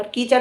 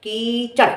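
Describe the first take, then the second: First: कीचड़ with a plain r at the end, "keechar"; mispronunciation imitated. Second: कीचड़ with a flapped hard ṛ at the end, "keechaṛ"; corrected pronunciation. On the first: Correcting a rival's word, mock wrong pronunciation. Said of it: "क्या कहते हैं, कीचड़". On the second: Shown as a demonstration. Correcting a rival's word, careful pronunciation. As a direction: set कीचड़ apart, ending on a retroflex flap. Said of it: "कीचड़ नहीं, कीचड़".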